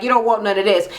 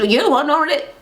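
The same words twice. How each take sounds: First: Matter-of-fact retold dare; understated acted threat. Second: Higher-pitched incredulous echo; retold dare, pitched up; challenge thrown back. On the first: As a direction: imitate a cool warning to a rival. First side of retold challenge. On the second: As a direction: imitate a rival tossing the dare back.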